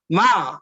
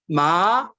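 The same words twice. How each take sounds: First: The pitch falls sharply from high to low. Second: The pitch rises from middle to high. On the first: It means to scold. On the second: It means hemp cloth.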